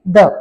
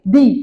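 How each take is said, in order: First: The vowel is short and reduced, like 'thuh'. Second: The vowel is long and tense, like 'thee'. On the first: The next word starts with a consonant. "यहाँ पे हम फिर T H E को क्या बोलेंगे" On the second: The next word starts with a vowel. "तो इसको क्या प्रोनाउंस करेंगे"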